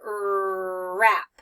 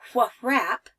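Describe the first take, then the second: First: The word starts directly with the R sound. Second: A W sound is voiced before the R. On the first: The speaker calls it right. "I just start with the R sound" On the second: The speaker calls it wrong. "I don't say wh wrap"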